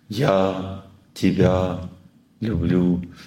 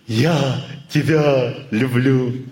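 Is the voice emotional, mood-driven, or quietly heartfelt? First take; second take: heartfelt; mood-driven. First: It is said with sincere, remembering warmth. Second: It is said from a passing mood. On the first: The listener feels real love. The speaker calls it right. "третий вариант" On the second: The feeling is not believed. The speaker calls it wrong. "он от настроения говорит"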